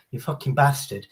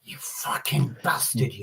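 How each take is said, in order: First: Casual, playful swearing; joking insult. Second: Slow, whispered menace; aggressive. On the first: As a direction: toss it off as friendly banter. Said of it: "means she's having a laugh". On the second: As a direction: drag the insult out in a threatening hush. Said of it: "That's aggressive". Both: Shown as a demonstration.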